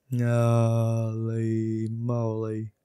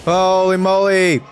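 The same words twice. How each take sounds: First: Very slow, long-held vowels; drawn-out dismay. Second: Loud, high burst of disbelief; shocked exclamation. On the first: Player taking in the mistake, slow drawn-out dismay. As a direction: stretch each word right out at usual pitch. Deflated after own fail. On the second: Player reacting to a huge fail in the game, shocked shout. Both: Real, not acted.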